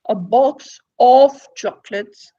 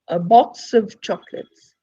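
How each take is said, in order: First: The word 'of' is said in full form. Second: The word 'of' is said in reduced form. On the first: The speaker calls it wrong. "We don't say" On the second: The speaker calls it right.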